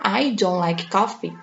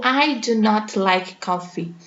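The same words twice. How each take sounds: First: "don't" run together in one syllable; teacher contrasting the informal version; contracted form. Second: "do not" kept as two words; teacher contrasting the formal version; full form. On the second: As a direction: separate "do" and "not" clearly. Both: Shown as a demonstration. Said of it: "não tem diferença".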